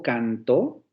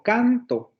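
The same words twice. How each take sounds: First: "cantó" slowly, rising onto a stressed -tó; stress on last syllable. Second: "canto" stressed on CAN-, falling off on -to; stress on first syllable. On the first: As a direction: lean on the final syllable of "cantó", can-TÓ. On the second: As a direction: punch the opening syllable of "canto". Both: Shown as a demonstration. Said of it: "vean la diferencia".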